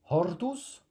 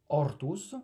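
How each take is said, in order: First: The word begins with an audible h sound. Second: The word begins directly with the vowel, no h.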